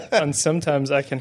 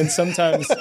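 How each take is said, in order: First: Said in the usual way. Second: Says it through a laugh. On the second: Real, not acted. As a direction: giggle out the words. Laughing while repeating himself.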